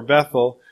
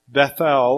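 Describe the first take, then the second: First: "Bethel" with a reduced "ul" ending; "Bethel" stressed on the first syllable, second swallowed; everyday Bethel. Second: "Bethel" with a full, clear "el" ending; "Bethel" pronounced with an unreduced second syllable; two-syllable Bethel. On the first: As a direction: say "Bethel" as BETH-ul. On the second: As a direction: say "Bethel" as beth-EL. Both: Shown as a demonstration. Gives two pronunciations of name.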